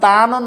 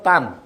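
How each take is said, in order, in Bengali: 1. শব্দটি একটি পূর্ণ স্বরধ্বনি দিয়ে শেষ হয়। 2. শব্দটি একটি হসন্ত ব্যঞ্জন দিয়ে শেষ হয়। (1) "না হয়ে" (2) "হবে তান"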